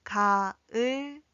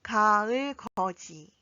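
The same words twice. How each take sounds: First: Separated 가을거지 for learners to follow; syllable by syllable. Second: 가을거지 joined as one word, ending in ji; 가을거지 run together for practice; connected model. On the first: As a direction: model 가, 을, 거, 지 one at a time. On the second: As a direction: say 가을거지 clearly without gaps. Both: Shown as a demonstration. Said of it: "함께 연습해 볼까요".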